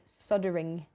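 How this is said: The L is silent, like "sodder-ing". "the way that the people in the U S say soldering"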